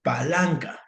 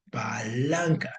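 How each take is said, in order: First: Said in the usual way. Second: Palanca said slowly, each syllable drawn out, stress on LAN. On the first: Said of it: "O esta otra". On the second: Shown as a demonstration. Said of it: "por qué no le puedo poner la tilde".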